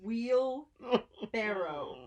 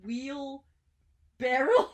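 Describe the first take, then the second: First: The word ends with a 'row' sound like boat. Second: The word ends with an 'rel' sound like barrel. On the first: The speaker calls it right. "Like row, like a boat" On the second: The speaker calls it wrong. "you said wheel barrel like Cracker Barrel"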